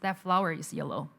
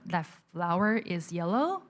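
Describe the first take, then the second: First: The voice falls at the end, like a statement. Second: The voice rises at the end, like a question. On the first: The speaker sounds confident. The speaker calls it right. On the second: The speaker sounds unsure. The speaker calls it wrong.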